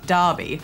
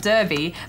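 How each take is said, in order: First: The first vowel sounds like 'ar'. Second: The first vowel sounds like 'er'. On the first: This is how the name is said locally. "apparently you pronounce it Derby" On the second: This is how the name is written. "It's spelt Derby"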